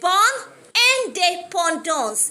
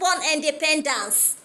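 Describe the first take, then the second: First: The phrase is said with French pronunciation. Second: The phrase is said like the English word. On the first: The speaker calls it right. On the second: The speaker calls it wrong.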